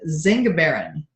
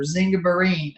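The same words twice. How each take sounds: First: "zingiberin" with a short, unstressed last syllable; first pronunciation attempt. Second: "zingiberine" with a long "-een" ending; alternative pronunciation. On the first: Unsure presenter trying a word for listeners, "zingiberin" with short ending. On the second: Presenter offering another guess at the word, "zingiberine" ending in long "-een". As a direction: lean on the last syllable of "zingiberine", as "-EEN". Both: Shown as a demonstration. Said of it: "not sure where the accent goes".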